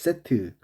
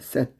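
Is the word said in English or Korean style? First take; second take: Korean; English. First: The word is said with Korean pronunciation. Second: The word is said with English pronunciation. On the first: "콩글리시 발음으로 세트라고 하지" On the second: "영어로 set이라고 해요"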